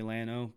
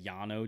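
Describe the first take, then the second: First: "Llano" said as LAN-oh; anglicized pronunciation. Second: "Llano" said as YAH-no; attempted Spanish pronunciation. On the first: Admitting he can't do the accent, "Llano" as LAN-oh. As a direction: say "Llano" with a hard English L, LAN-oh. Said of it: "can't say it with the right accent". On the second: Showing why he sounds dumb, "Llano" as YAH-no. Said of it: "say Llano just sounds dumb". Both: Shown as a demonstration.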